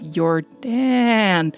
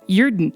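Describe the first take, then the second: First: The double A vowel is drawn out. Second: It sounds almost Swedish. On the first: "emphasizing the double A there" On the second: "it sounds almost Swedish"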